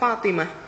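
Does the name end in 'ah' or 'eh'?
ah. The name ends with an 'ah' sound. It is the standard form of the name.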